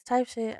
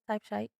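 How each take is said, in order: First: The name is said in the ordinary way. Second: The name is said the way Siri pronounces it. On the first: "if you look it up, it's it's type shit" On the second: "you can pronounce it like Siri does"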